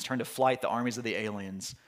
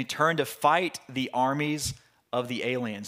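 First: "flight" with a clear fl, softer correction; corrected to flight. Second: "fight" said instead of flight, a slip in the reading; misread fight. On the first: Preacher correcting his slip to the congregation, "flight". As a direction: fix it to "flight", quietly. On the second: Preacher misreading the verse aloud, "fight" slip. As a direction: read "fight" as the slip before correcting. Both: Shown as a demonstration. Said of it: "excuse me".

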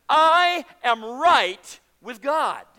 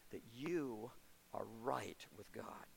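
First: Slow, loud, drawn-out declaration, much louder; triumphant proclaiming shout. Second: Very soft, low, slow near-whisper; hushed assurance. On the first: Preacher to his congregation, a slow triumphant shout. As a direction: ring it out to the back row. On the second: Preacher reassuring listeners, very soft slow low close. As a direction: let it sink in gently. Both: Acted.

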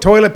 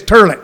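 First: Said in the usual way. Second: "turlet", toilet turned into TUR-let. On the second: Shown as a demonstration. Host bothering people with his pet word, "turlet" with an er vowel. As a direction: say "turlet" with an er vowel in the first syllable. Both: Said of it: "I reinterpreted it as turlet".

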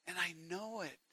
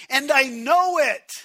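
First: Quiet. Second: Loud. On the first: Repeated softly after loud take. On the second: Preacher repeats line, loud then soft. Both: Acted.

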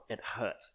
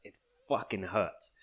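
First: Said in the usual way. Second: Fucking leaned on hard before hurts; stress on fucking. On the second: Real, not acted. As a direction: hit fucking, let hurts fall.

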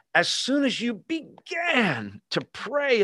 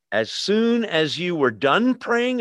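First: Higher and slow, savoring "began"; slow, high, wondering stress on "began" in "As soon as you began to pray"; right version, emphasized. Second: Slow, deliberate misquote; a slow, pointed wrong reading of "As soon as you were done praying"; wrong version. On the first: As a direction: stretch out "began to pray" in awe. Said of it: "it blows my mind". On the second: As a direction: set up the wrong reading slowly. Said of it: "is that what twenty-three says?". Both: Shown as a demonstration.

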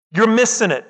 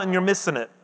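First: "You're missing it" back at full voice, pressed home after a pause; emphatic repeat. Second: Sudden soft drop, almost to himself; dropped quiet. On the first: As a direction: restate it firmly to the church. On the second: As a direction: let it fall away quietly. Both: Acted. Preacher repeats the warning.

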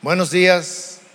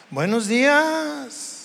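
First: Lower, clipped Buenos días falling flat; grudging good morning. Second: Slow, soft Buenos días, days drawn out; sweet good morning. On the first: Pastor showing a cold greeting, lower and curt. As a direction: greet as if annoyed. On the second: Pastor showing a friendly greeting, slow and soft. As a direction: greet kindly and unhurried. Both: Shown as a demonstration. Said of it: "el tono de voz nos dice mucho".

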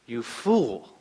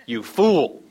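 First: God's grave verdict. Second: Louder teasing jab; buddy's mock jeer. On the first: Acted. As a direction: let it land as a divine verdict. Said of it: "It's God says". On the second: A buddy teasing him over a robotic dog, mock jeering. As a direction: toss it like a friend ribbing you. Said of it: "not one of his buddies that says".

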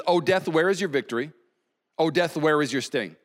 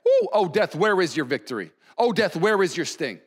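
First: Said in the usual way. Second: Lively, teasing challenge to death; taunting. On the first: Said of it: "It says this". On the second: Acted. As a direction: taunt it like a rival team. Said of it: "taunting death".

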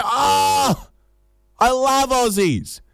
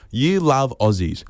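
First: Very high, drawn-out delight; gushing enthusiasm. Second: Slow, deliberate challenge at normal pitch; pulling them up. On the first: Foreigner learning the traveller is Australian, gushing enthusiasm. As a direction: gush it slowly in a high swooning pitch. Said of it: "maybe we need more enthusiasm". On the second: Traveller pulling up a gushing foreigner, slow sceptical challenge. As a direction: repeat their words back slowly, unimpressed. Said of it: "you have to pull them up". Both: Acted.

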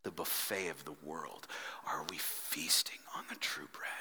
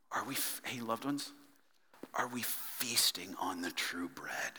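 First: Breathy hushed whisper, much softer; whispered, intimate question. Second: Hushed whispered question; a preacher's sudden whisper. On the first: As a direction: whisper it close to the mic. Preacher whispers repeated question. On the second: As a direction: lean in and whisper it. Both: Real, not acted.

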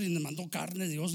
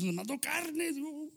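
First: Said in the usual way. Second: "carne" said high and slow; slow emphatic repeat. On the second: Shown as a demonstration. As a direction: stretch "nos mandó carne Dios" out high. (repite "carne" alto y lento)

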